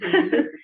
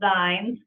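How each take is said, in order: First: The vowel matches the vowel in bean. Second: The vowel differs from the vowel in bean. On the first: The speaker calls it right. "They're called zines" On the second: The speaker calls it wrong. "A lot of people call them zines, ... but that's not what they're called"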